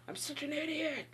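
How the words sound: It is said angrily, scolding oneself.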